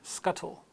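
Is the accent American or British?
British. The middle T is pronounced as a clear T. "in British English"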